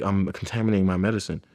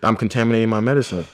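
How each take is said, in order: First: Said in the usual way. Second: Quicker, insistent push on contaminating; insistent repeated line; emphatic refrain. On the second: Shown as a demonstration. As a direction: drive the point home. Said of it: "listening to [name] and getting".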